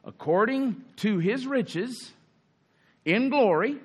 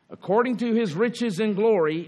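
First: Slow, deliberate reading, weighing each word; read slowly. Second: Said in the usual way. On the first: Shown as a demonstration. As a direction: let According to his riches in glory sink in slowly. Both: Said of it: "Let's just read that slowly".

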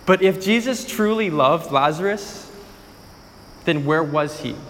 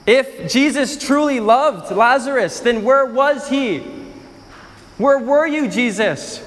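First: Said in the usual way. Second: Pressing accusation. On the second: Acted. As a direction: repeat it harder, accusing. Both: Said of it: "Some of them responded like this".

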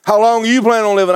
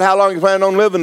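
First: Quick question with "you" punched; stress on YOU. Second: Said in the usual way. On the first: Retold or imitated. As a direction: lean on "you" to throw the question back. Old man turns the question back.

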